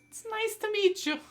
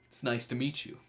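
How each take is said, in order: First: It is said in a put-on character voice. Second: It is said in the speaker's natural voice.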